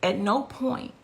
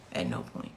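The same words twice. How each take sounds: First: Said in the usual way. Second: A near-silent whispered echo of the phrase; soft whispered "At no point"; whispered repeat. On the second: Real, not acted. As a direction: drop it to a breathless whisper. Repeats her point, emphatic.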